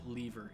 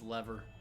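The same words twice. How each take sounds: First: The first vowel sounds like in 'leave'. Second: The first vowel sounds like in 'level'. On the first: The speaker calls it wrong. "I hate it when people pronounce it lever" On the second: The speaker calls it right. "It's lever"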